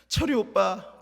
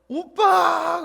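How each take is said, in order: First: It is called out softly. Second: It is called out loudly.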